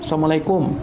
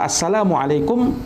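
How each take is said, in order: First: The greeting is said without the syllable 'la'. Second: The full greeting is said with the syllable 'la'. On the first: Death be upon you. The speaker calls it wrong. "ini artinya sam, sam, assalamualaikum artinya kematian" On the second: Peace be upon you. The speaker calls it right. "Kalau assalamualaikum, keselamatan atas kamu"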